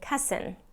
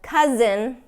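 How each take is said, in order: First: The middle consonant is a hissing voiceless S. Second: The middle consonant is a buzzing voiced Z. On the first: The speaker calls it wrong. "I'm hearing cousin" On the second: The speaker calls it right. "Instead of cousin"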